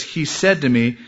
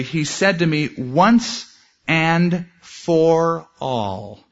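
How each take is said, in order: First: Said in the usual way. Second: "once and for all" slowly drawn out, each word weighted; slow, deliberate emphasis on "once and for all"; emphatic, slow. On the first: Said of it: "it's actually". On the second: Shown as a demonstration. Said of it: "He made it emphatic for Paul".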